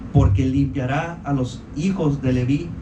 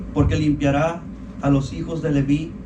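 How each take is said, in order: Both takes have the same delivery.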